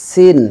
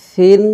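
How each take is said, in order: First: সিন with a sharp sibilant s; whistled s starting সিন; hissing S. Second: সিন as "thin", tongue on upper teeth; lisped th starting সিন; soft lisped TH. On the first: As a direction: let the s of সিন sound out clearly. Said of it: "একটু আওয়াজ বের হবে". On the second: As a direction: say সিন with a soft th, raised pitch. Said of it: "নরম". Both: Shown as a demonstration.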